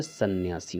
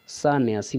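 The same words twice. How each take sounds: First: सन्यासी as san-nyaasi with short a; correct form. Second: सन्यासी as saan-yaasi; wrong form. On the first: Teacher giving the right word, सन्यासी with short first vowel. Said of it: "सन्यासी होता है". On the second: Teacher citing the error, सन्यासी with long first vowel. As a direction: stretch the first syllable of सन्यासी. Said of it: "सन्यासी नहीं होता है". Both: Shown as a demonstration.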